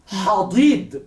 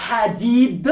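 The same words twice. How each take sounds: First: "hadid" with heavy d, darkened vowels; emphatic D. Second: "hadid" with light d sounds, front vowels; soft D. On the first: Teacher asking students to notice the difference, emphatic D in "hadid". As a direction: press and back the d in "hadid". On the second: Teacher asking students to notice the difference, soft D in "hadid". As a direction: keep both d in "hadid" soft. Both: Shown as a demonstration. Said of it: "¿Podéis notar la diferencia?".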